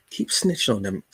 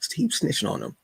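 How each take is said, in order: First: Said in the usual way. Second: "Keep" jumps high, then falls; "Keep snitching on them" pushed up high; high teasing repeat. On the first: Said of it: "repeated line". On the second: Shown as a demonstration. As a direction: egg the kids on in a higher, playful voice. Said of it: "repeated line, pitched up".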